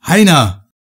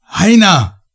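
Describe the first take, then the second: First: Higher, louder call of a name. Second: Much higher, louder desperate yell; bellowing his name. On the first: Narrator calls for his vanished companion, loud call. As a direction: call him into the dark. Calling into the red light. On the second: Narrator bellows for his companion into the red light, desperate yell. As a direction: roar the name into the void. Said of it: "brüllte ich in das flirrende rote Licht". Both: Acted.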